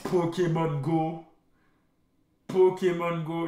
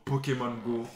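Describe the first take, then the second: First: Slow, savoring each syllable; drawn out. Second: Said through a laugh. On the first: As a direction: stretch out the name. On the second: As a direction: laugh while saying it. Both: Real, not acted. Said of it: "repeats it drawn out".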